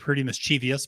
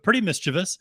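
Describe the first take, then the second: First: 'Mischievous' is said in a variant, nonstandard form. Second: 'Mischievous' is said in its standard form. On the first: The speaker calls it wrong. "who I always want to say Pretty Mischievous, but I know that's mispronouncing it" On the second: The speaker calls it right. "but Pretty Mischievous"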